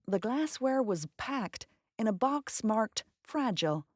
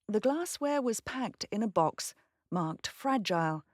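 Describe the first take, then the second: First: It is said in an American accent. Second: It is said in a British accent.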